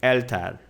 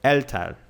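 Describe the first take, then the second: The two takes are said the same way.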